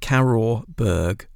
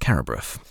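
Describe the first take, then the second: First: The name ends with a hard 'berg' sound. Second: The name ends with a 'bruff' sound. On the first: The speaker calls it wrong. "So it's almost like Carrorburg" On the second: The speaker calls it right. "but it's Carrabruff"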